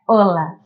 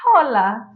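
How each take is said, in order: First: The word begins with no h sound. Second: The word begins with an audible h sound. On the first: The speaker calls it right. "o correto é hola" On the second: The speaker calls it wrong. "trazer a pronúncia do inglês para cá"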